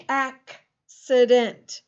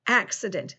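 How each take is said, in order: First: "accident" drawn out slowly, K set apart from "sident"; split into sounds. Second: Said in the usual way. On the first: Shown as a demonstration. Teacher letting pupils hear both C sounds, slowly split apart. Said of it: "the first C is a K sound". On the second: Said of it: "There's something else".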